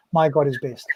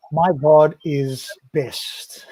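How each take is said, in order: First: Said in the usual way. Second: Very slow, each word spaced out; slow title read. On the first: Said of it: "put it down into". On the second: Shown as a demonstration. Slowly announcing the verse title to his co-host. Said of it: "seventy-one".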